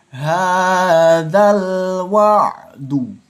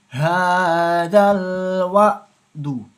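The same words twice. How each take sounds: First: It is read slowly with a clear throat sound. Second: It is rushed and the throat sound is dropped. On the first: The speaker calls it right. "hati-hati membacanya. Jangan terburu-buru membacanya" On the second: The speaker calls it wrong. "jika yang terburu-buru membacanya malah berubah nanti dari hurufnya"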